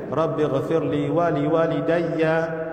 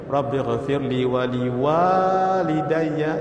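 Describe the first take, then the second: First: The first vowel of walidayya is cut short. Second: The first vowel of walidayya is held long. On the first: The speaker calls it wrong. "Yang salahnya" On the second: The speaker calls it right. "yang panjang sepatutnya"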